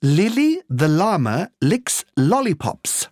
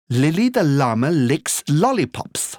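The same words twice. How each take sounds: First: The phrase is said at a slow pace. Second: The phrase is said at a medium pace.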